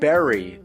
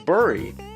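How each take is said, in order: First: The vowel sounds like the one in 'berry'. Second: The vowel sounds like the one in 'burr'. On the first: "everyone else says berry" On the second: "It's Burry"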